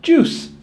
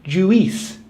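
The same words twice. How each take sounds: First: "juice" as one syllable with an OO vowel; correct juice. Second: "juice" split in two, JOO-EES; mispronounced juice. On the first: Teacher modelling the U I sound, correct pronunciation. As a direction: say "juice" like JOOS. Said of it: "U I is pronounced the same as O O". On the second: Teacher showing learners a common mistake, mispronounced. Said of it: "A lot of people think it's pronounced". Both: Shown as a demonstration.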